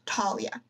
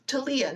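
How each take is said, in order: First: The stress is not on the middle syllable. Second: The stress falls on the middle syllable. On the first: The speaker calls it wrong. "not Talia" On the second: The speaker calls it right. "with the Lee emphasized, like Talia"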